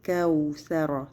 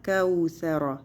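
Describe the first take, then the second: Both takes have the same delivery.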